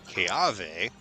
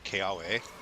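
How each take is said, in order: First: The middle consonant is a V sound. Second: The middle consonant is a W sound.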